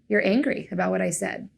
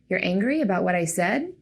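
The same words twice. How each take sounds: First: The pitch stays down at the end. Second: The pitch rises at the end. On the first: The listener shows they are listening and understand. The speaker calls it right. "With statements, inflection stays down at the end" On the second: The listener seems not to believe the person. The speaker calls it wrong. "With questions, inflection goes up at the end"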